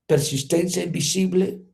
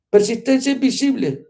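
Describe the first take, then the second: First: Said in the usual way. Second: "Persistencia" hit higher and louder; emphatic lesson title. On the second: Shown as a demonstration. Preacher proclaiming the first lesson, emphatic. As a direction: proclaim "Persistencia invisible" with force.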